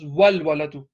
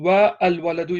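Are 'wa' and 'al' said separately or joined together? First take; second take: joined; separate. First: Wa joins directly onto the l sound. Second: Wa and al are said as separate syllables. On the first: The speaker calls it right. "it becomes wal waladu" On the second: The speaker calls it wrong. "Instead of saying wa al waladu"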